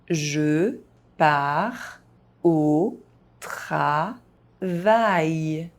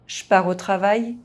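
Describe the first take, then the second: First: It is spoken very slowly, syllable by syllable. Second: It is spoken fast, with some sounds dropped. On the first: "very slowly" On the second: "fast, as a native speaker would do"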